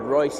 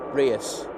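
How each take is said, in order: First: The name is said as one syllable, 'Royce'. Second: The name is said as two syllables, 'Rios'. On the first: The speaker calls it wrong. "I said Royce yesterday and I got pulled up by Michael for it" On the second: The speaker calls it right. "I better say it right"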